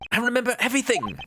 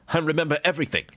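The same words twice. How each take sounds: First: It is said in a young-sounding voice. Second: It is said in a deep voice.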